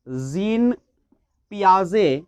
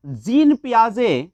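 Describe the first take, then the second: First: जीन, a pause, then पियाजे, each word said on its own; teacher spelling out जीन ... पियाजे with a gap between the words; name split apart. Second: जीन पियाजे said slowly and carefully; teacher drawing out जीन पियाजे for the class; slow name. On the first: Teacher repeating the psychologist's name for students, word by word. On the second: Teacher introducing जीन पियाजे to students, slow and careful. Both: Shown as a demonstration. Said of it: "जीन पियाजे ने क्या कहा".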